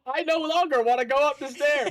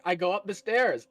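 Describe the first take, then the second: First: High, panicked backpedal; mock panic. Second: Said in the usual way. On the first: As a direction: squeal it like a sudden coward. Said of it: "I was very much expecting a". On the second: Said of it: "There was a pause after you, like".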